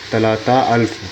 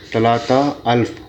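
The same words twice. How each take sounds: The two takes are said the same way.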